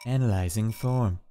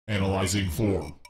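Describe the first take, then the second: First: It is said in his normal voice. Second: It is said in a robotic put-on voice.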